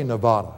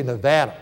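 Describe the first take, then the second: First: "Nevada" with a broad AH in the middle; outsider's Nevada. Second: "Nevada" with a short A as in cat; local Nevada. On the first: Preacher shows what locals don't say, broad-a Nevada. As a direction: say "Nevada" as ne-VAH-da. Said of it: "they don't say Nevada". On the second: Preacher shows how Nevadans say it, short-a Nevada. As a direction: say "Nevada" as ne-VADD-a. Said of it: "they say Nevada". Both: Shown as a demonstration.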